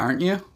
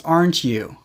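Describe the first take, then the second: First: The voice rises at the end. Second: The voice falls at the end. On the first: The speaker is checking something they think is true. "they usually have a rising intonation" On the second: The speaker has just remembered something. "show that we now understand or remember something"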